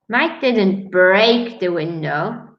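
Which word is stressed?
break. The stress falls on the word break. He did something else to the window. "He only closed it"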